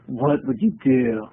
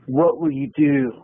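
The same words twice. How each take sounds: First: Low, slow spacey delivery; deadpan dude voice. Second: Flat surfer-cool Keanu delivery; Keanu Reeves impression. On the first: Shown as a demonstration. Comic redoes the question in a spaced-out voice. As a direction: say it like a stoned surfer. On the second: Comic asks the crowd like Keanu Reeves. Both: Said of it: "That's very Keanu Reeves".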